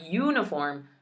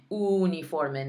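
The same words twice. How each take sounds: First: Uniform said the English way, YOO-nih-form; the wrong English uniform; English pronunciation. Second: Uniforme as oo-nee-FOR-meh; Spanish pronunciation. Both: Shown as a demonstration. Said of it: "not uniform".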